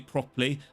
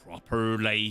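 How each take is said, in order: First: The R sound is weak, standard English style. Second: The R sound is strongly pronounced, West Country style. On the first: This is how the speaker does not say it. "I don't say properly" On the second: This is how the speaker's local accent says it. "I really emphasize the R's in my language"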